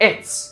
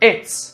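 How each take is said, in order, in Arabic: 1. مدمجتان في مقطع قصير واحد: it's. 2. مدمجتان في مقطع قصير واحد: it's.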